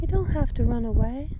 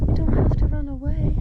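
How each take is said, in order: First: Gentle coaxing coo. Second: High, a bit louder cooing plea. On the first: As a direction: coax it gently, rising. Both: Real, not acted. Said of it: "Don't mind my baby talk".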